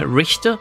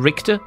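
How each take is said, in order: First: The 'ch' is a breathy fricative sound. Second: The 'ch' is a hard k sound. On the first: This is the German way of saying the name. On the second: This is how English speakers say the name.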